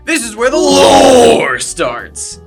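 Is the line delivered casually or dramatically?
dramatically. It is said in a dramatic, heightened way. The speaker calls it right.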